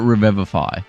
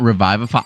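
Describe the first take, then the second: First: The second vowel does not sound like 'revive'. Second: The second vowel sounds like the one in 'revive'. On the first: This is the form everyone around the speaker uses. "I've always called it revivify" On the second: This is the form that follows the word 'revive'. "It's not revivify"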